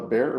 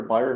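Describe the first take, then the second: First: "Bayer" said as BAIR; American pronunciation. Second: "Bayer" said as BY-er; alternative pronunciation. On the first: Doctor offers one way of saying the company's name, "Bayer" as BAIR. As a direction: say "Bayer" like the word bear. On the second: Doctor offers the other way of saying the company's name, "Bayer" as BY-er. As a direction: say "Bayer" in two syllables, like buyer. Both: Shown as a demonstration. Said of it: "depending on how you like to pronounce it".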